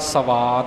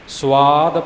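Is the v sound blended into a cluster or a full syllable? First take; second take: full; blended. First: The v is pronounced as a full separate syllable. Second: The v is blended into the s as a cluster. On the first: The speaker calls it wrong. "ਸਵਾਦ ਨਹੀਂ" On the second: The speaker calls it right. "ਸਵਾਦ ਪਾਠ ਹੋਵੇਗਾ"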